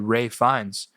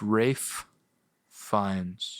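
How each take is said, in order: First: The first name is said quickly without the f. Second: The first name is said with a final f. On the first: The speaker calls it wrong. "if you just say it fast enough, you say Ray Fiennes" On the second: The speaker calls it right. "But it's Rafe Fiennes"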